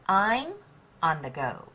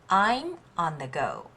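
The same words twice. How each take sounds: Both takes have the same delivery.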